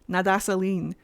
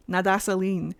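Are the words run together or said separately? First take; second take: run together; run together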